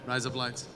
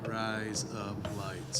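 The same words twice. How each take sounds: First: It is said fast. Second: It is said slowly.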